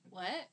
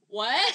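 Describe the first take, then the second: First: Soft, rising little question; understated questioning reaction; small puzzled what. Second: Loud, rising WHAT; much louder, incredulous question; all-caps what. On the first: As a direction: say it quietly, barely reacting. First reaction, before all-caps one. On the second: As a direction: blurt it in capital letters. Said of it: "then in all caps". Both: Retold or imitated.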